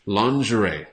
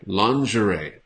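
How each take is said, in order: Both takes have the same delivery.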